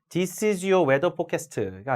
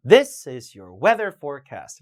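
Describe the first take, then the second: First: This is your weather forecast with Korean vowels, all even; even syllable-by-syllable this is your weather forecast; wrong Korean-style reading. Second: THIS is your weather forecast; slow reading with this stressed; stress on demonstrative. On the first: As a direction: forecast as "po-ke-seu-teu", this unstressed. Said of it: "가 아니라". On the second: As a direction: punch this, English rhythm. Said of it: "이런 단어 힘을 좀 주세요". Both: Shown as a demonstration.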